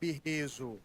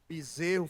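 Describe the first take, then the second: First: The word is said with garbled, reordered sounds. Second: The word is said in its standard form. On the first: The speaker calls it wrong. "faz birrezo" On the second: The speaker calls it right. "Em vez de falar bezerro"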